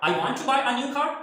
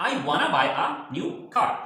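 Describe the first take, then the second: First: Both words 'want to' are said fully. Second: 'Want to' is reduced to 'wanna'. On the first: "ये भी सही है" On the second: "shortcut वाना"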